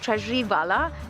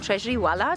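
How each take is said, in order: First: The surname begins with a V sound. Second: The surname begins with a W sound. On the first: This is how the name really sounds. The speaker calls it right. "my name is" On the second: Other people have said it this way for years. The speaker calls it wrong. "for years people have saying, been saying"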